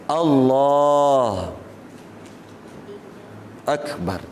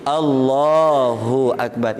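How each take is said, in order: First: There is a stop between the two words. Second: The two words run on without a stop. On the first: The speaker calls it wrong. "Tak boleh berhenti. Di antara, tak boleh diamkan diri di antara kalimah Allah dengan ak" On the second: The speaker calls it right.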